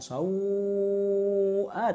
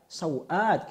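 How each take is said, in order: First: The vowel before the glottal stop is lengthened. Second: The vowel before the glottal stop is short. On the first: "bukan sau'at sebagaimana uh, apa mazhab asal kami" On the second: "tanpa mad"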